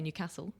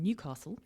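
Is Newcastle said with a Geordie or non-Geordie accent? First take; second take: Geordie; non-Geordie. First: It is said with a northeast Geordie accent. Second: It is said without a northeast Geordie accent. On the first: "northeast Geordie twang sometimes with some words, especially when I say Newcastle" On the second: "rather than"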